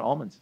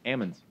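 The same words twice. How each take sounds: First: "almonds" said AHL-munz, with a broad open first vowel; "almonds" starting like "all", not like "am"; standard pronunciation of almonds. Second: "almonds" said AM-unz, short A and no L; "almonds" starting like "am", not like "all"; local pronunciation of almonds. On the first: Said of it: "It's almonds". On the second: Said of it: "It's not almonds". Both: Shown as a demonstration.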